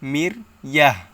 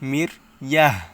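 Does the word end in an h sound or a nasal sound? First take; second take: h sound; h sound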